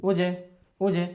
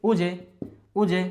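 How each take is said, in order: No difference in how they are said.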